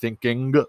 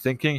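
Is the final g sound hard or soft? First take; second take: hard; soft. First: The final g is hard and clearly heard. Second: The final g is soft and barely heard. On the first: "he has a very hard G" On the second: "instead of saying thinking"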